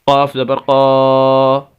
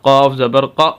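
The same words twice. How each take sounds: First: The final vowel is stretched out long. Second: The final vowel is cut off abruptly. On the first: "लंबा नहीं करना ... ऐसे नहीं करना, यह गलत होगा" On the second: "झटका नहीं देना ... ये भी गलत होगा"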